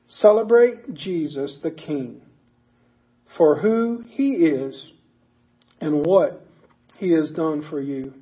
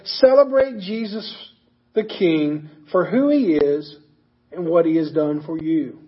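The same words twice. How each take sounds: First: It is said at a slower pace. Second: It is said at a faster pace.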